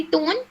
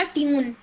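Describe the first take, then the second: First: Said in the usual way. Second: "ट्यून" said like tune, not tone; wrong vowel. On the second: Shown as a demonstration. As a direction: say "ट्यून" with a yu sound. ("टोन" को "ट्यून" बोलना) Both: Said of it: "तो आपने बोला ट्यून".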